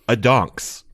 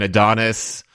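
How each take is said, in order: First: The name ends with a 'ks' sound. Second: The name ends with an 'is' sound. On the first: The speaker calls it wrong. "I'm going to pronounce this wrong on purpose" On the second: The speaker calls it right.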